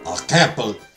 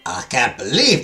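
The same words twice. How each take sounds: First: It is said in the speaker's ordinary accent. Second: It is said in a put-on French accent. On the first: The speaker calls it wrong. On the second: The speaker calls it right.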